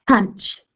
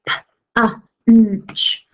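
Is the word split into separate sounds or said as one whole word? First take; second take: whole word; separate sounds. First: The word is said as one smooth whole. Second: The word is broken into separate sounds.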